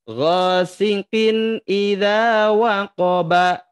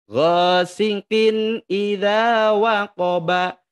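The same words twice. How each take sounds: Both takes have the same delivery.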